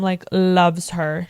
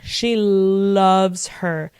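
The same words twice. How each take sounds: First: Said in the usual way. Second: She loves her said slowly, every word leaned on; slow emphatic repeat; drawn-out emphasis. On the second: Shown as a demonstration.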